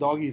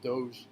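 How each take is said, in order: First: The word ends in an 'ee' sound. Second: The word ends in a 'j' sound. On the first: "I think doggy sounds like a thousand times better" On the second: "Doge is the actual correct way to say it"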